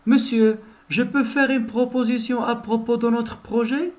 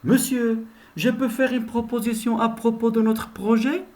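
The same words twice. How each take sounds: First: Higher, polite question to the teacher; student repeating the polite question. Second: Higher, polite question to the teacher; student proposing an idea to the teacher. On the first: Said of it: "je répète". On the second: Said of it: "voilà un exemple". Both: Shown as a demonstration. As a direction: ask the teacher permission nicely.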